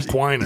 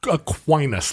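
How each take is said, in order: First: It is said in a nasal Midwestern accent. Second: It is said in a plain accent.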